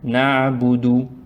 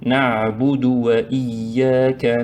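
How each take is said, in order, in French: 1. Il y a une pause après na'budu. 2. Les mots s'enchaînent sans pause. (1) "il faut séparer" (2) "Et puis, collez"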